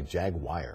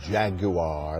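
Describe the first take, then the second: First: Jaguar is said with a Texan pronunciation. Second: Jaguar is said with a British pronunciation. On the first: The speaker calls it wrong. "A lot of people here in Texas say" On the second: The speaker calls it right. "like they do back in England"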